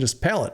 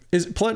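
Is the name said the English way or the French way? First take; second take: English; French. First: The name is said like the English word palate. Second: The name is said with a French pronunciation. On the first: "do not uh, abide by the French pronunciation, just palate" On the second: "it's Pallette"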